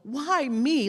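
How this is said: It sounds like a mild, puzzled complaint.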